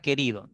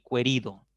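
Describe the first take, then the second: First: The u after the q is silent. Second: The u after the q is sounded. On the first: The speaker calls it right. "Tú dices" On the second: The speaker calls it wrong. "no ... ni querido"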